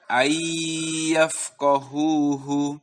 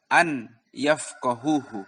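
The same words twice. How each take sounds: First: Slow ayyafqahuhu with held gunnah; nun merged in ayyafqahuhu. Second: Wrong reading, unmerged n in an yafqahuhu; clear nun in an yafqahuhu. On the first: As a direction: blend n into y and hold it. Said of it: "Jadi dibaca". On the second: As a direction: pronounce an separately before yafqahuhu. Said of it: "Tidak boleh dibaca". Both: Shown as a demonstration.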